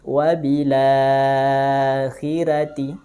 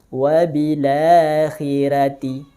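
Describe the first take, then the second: First: The vowel after la is held for four counts. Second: The vowel after la is held for two counts. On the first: "Dengan empat harokat atau tawasud" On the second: "Dengan dua harokat mad badal"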